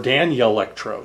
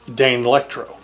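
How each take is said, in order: First: A Y sound follows the N in the word. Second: The first syllable sounds like the word Dane. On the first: "So with a y sound kind of mixed in there" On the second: "it treats the first four letters like it's sounding out the word Dane"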